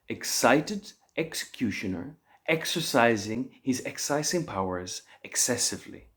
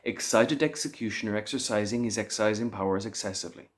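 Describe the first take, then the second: First: It is said at a slow, careful pace. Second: It is said at a moderately fast pace.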